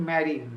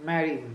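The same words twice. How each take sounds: No difference in how they are said.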